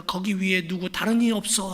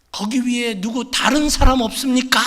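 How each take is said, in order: First: Said in the usual way. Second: Desperate shout. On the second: Acted. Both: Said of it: "소리, 소리를 지릅니다".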